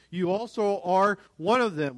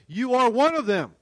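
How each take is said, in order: First: Said in the usual way. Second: Raised, louder, insistent accusation; adamant. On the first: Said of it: "Again, the N I V translation". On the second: Acted. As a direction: accuse them firmly, pitched high.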